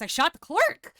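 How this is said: It rises at the end like a question.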